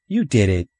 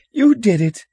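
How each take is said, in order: First: Put-on slightly raised boy's retort; accusing retort. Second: Put-on very high, loud child's yell; shrill accusation. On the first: Older brother blaming younger one, accusing retort. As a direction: throw the blame straight back. Earl throws blame back. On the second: Upset little brother blaming the older one, shrill accusation. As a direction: shriek the blame back. Stephen shrieks blame at his brother.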